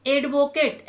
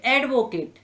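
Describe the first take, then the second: First: एडवोकेट starting on a closed "ay"; spelling pronunciation. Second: एडवोकेट starting on an open "ae", as in "add"; English pronunciation. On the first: Teacher showing the written form, closed "ay" opening on एडवोकेट. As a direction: begin एडवोकेट with letter-name A. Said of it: "लिखे तो ए से जाते हैं". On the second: Teacher showing the spoken form, open "ae" opening on एडवोकेट. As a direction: open the first vowel of एडवोकेट. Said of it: "उसका उच्चारण ऐसे करते हैं". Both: Shown as a demonstration.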